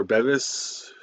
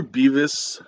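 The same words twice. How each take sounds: First: Bevis with a short e; first vowel of Bevis as in bed. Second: Beavis with a long ee; first vowel of Beavis as in bee. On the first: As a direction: say Bevis as BEV-is. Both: Shown as a demonstration. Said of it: "or Bevis".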